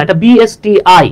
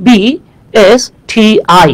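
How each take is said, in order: First: বিএসটিআই said as separate letters; বিএসটিআই spelled out slowly; বিএসটিআই letter by letter, calmly. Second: বিএসটিআই spelled out slowly as separate letters; বিএসটিআই each letter stretched. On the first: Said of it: "এটা তো বস্তি না". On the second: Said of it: "আমরা কি বলি?". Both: Shown as a demonstration.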